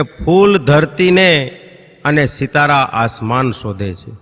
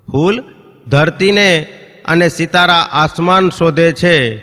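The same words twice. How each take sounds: First: Drawn-out poetic recitation; slow, measured verse reading; slow recital. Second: Louder, slow declaiming of the couplet; ફૂલ and ધરતીને each set apart, louder and slow; emphatic recital. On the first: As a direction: savour each word of the couplet slowly. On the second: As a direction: land the line on stage, fully projected. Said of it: "કે ફૂલ ધરતીને અને સિતારા આસમાન શોધે છે". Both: Shown as a demonstration.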